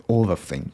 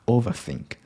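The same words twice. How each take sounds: The two takes are said the same way.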